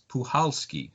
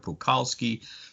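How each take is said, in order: First: The middle consonant is a soft H sound. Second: The middle consonant is a hard K sound. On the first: The speaker calls it right. "the C is silent. It's Puhalski" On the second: The speaker calls it wrong. "I was pronouncing it Puchalski or Pukalski"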